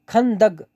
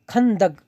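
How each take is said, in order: No difference in how they are said.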